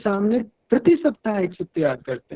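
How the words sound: The stress falls on 'prati saptah'. It is done every week, not every day. "यदि प्रति सप्ताह पर जोर दे रहे हैं"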